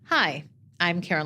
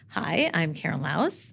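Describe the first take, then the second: First: The voice falls at the end, sounding complete. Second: The voice rises at the end, left hanging. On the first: The statement is complete. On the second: The sentence is not finished yet.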